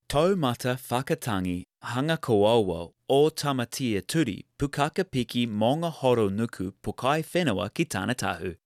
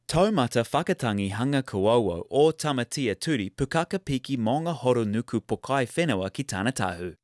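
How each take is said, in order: First: It is said slowly. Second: It is said at normal speed.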